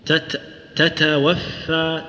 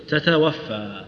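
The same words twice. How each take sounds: First: Slow "تتوفى" with each ت held before its breath; deliberate teaching take of "تتوفى", ت stopped then released; corrected, stopped ت. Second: "تتوفى" with both ت run loosely into breath; common faulty ت. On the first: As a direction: break off on "تت", then give "تتوفى" with firm closures. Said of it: "لا، أقول، لا، أقول". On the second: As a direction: say "تتوفى" straight through without holding the ت. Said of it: "كثير من الناس يقول إيش؟". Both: Shown as a demonstration.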